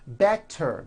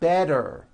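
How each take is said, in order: First: The middle consonant is a clear T sound. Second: The middle consonant is a voiced D sound.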